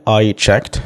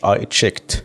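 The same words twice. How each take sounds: First: "checked" as one syllable, open e and final kt; correct "checked" pronunciation. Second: "checked" with a closer, tighter vowel; mispronounced "checked". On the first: Teacher models the word for learners, "checked" in one open-vowelled syllable. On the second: Teacher warns learners about a slip, "checked" with a narrowed vowel. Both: Shown as a demonstration. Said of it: "وخلي بالك من نطقها".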